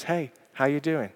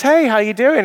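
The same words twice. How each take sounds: First: Quiet, gentle "Hey, how you doing?"; softer, sincere "Hey" with a falling tune; soft caring check-in. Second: High, loud breezy hello; higher and louder, casual office hello; cheery greeting. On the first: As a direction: ask softly, really meaning it. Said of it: "just says". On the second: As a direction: toss it off brightly in passing. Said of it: "he says". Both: Retold or imitated.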